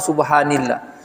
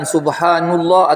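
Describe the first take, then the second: First: The vowel after subhan is i. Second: The vowel after subhan is u. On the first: "atau subhanillah" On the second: "bukan subhanullah"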